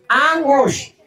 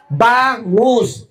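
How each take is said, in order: First: "Angus" said without the B, laughing; dropped B. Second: "Bangus" said clearly with the B; correct pronunciation. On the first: Acted. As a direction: swallow the B of "Angus". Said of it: "Ano bang angus?". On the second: Shown as a demonstration. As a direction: stress the B of "Bangus". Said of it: "Tama si ate, bangus".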